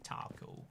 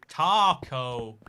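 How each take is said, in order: First: The word is said plainly in a British accent. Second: The word is said in an exaggerated, distorted way. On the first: "this is how I say taco" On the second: "I want to say it like as wrong as I humanly can now"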